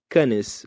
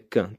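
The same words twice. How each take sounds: First: It is said with a Brazilian Portuguese pronunciation. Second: It is said with a French pronunciation. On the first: The speaker calls it wrong. "um brasileiro falaria" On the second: The speaker calls it right. "Mas em francês é Cannes"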